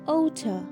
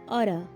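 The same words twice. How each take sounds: First: The middle consonant sounds like a t. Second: The middle consonant sounds like a d. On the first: "while British people say it oughta" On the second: "The Americans use da sound instead of ta sound"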